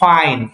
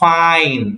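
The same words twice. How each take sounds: First: The word is said at normal, short length. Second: The word is stretched out and drawn long.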